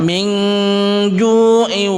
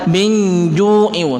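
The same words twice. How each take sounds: First: The n sound is obscured into a nasal hum. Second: The n sound is pronounced fully and clearly. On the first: The speaker calls it right. "kita samarkan" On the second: The speaker calls it wrong. "tidak boleh kita membaca min ju'in, tidak seenaknya membaca"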